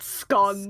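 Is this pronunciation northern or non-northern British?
northern. It uses the northern vowel. The speaker calls it wrong. "That's the well northern slash wrong way of pronouncing it"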